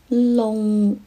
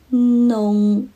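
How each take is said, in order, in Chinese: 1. 这个字开头是 l 音。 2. 这个字开头是 n 音。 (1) "我听到他发的是隆，很明显声母是了" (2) "真正的传统上的粤语弄的发音声母是呢"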